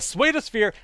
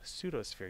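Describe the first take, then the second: First: The name starts with an 'sw' sound. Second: The name starts with a plain 's' sound. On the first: The speaker calls it wrong. "I mispronounced your name" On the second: The speaker calls it right. "Like like Pseudo Wuno"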